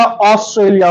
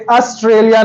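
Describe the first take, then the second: First: ऑस्ट्रेलिया with a rounded aw, os-tralia; right vowel. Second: ऑस्ट्रेलिया with a flat a, as-tralia; the wrong way, ऑस्ट्रेलिया with open a; wrong vowel. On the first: Teacher shows the right Australia. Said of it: "होता है". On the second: Teacher shows the wrong Australia. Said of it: "नहीं होता". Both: Shown as a demonstration.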